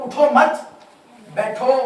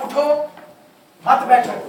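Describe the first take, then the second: First: उठो मत loud and raised, then बैठो apart; pause after मत. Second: उठो by itself, then a loud मत बैठो; pause after उठो. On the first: Teacher showing the changed meaning, pause after मत. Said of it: "अगर मैं कहूँ". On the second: Teacher telling the class to stand, pause after उठो. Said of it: "मैं कह रहा हूँ". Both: Shown as a demonstration.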